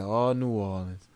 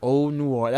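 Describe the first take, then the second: First: Oh drawn out, soft and lower, slow and wistful; slow dreamy imitation. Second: Said in the usual way. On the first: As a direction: imitate the doctor's faraway sigh. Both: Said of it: "That's how he said it".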